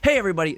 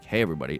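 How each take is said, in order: First: It is said with far too much enthusiasm. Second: It is said with far too little enthusiasm.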